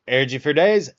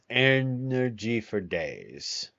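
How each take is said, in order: First: Loud, punchy burst of words; vocal stimming. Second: Slow, stretched-out echo; vocal stimming. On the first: Streamer repeating a favourite phrase as a vocal stim, loud and punchy. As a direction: punch it out in one quick excited burst. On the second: Streamer echoing their own phrase as a vocal stim, slow and drawn out. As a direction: drag each word out at half speed. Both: Real, not acted. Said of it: "I'm vocal stemming".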